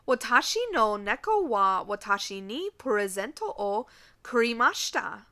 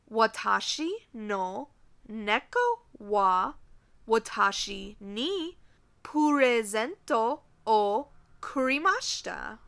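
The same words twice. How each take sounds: First: The sentence is spoken at a normal pace. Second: The sentence is spoken at a slower pace.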